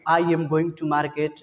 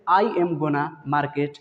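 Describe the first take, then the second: First: Going to is said in full, two words. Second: Going to is reduced to one word, gonna. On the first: "गोइंग टू को ही short में गोना बोला जाता है" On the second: "गोइंग टू ना बोल के आप उसके जगह पे गोना बोलेगा"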